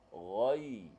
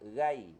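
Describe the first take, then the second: First: The ghain is heavy, with a raised tongue back. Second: The ghain is light, without a raised tongue back. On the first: The speaker calls it right. "kena baca ghai" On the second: The speaker calls it wrong. "jangan baca ghai"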